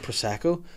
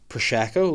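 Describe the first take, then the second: First: It is said in a plain, ordinary accent. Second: It is said in a put-on, slurred accent. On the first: "instead of saying prosecco" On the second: "like she's fucking Sean Connery or something"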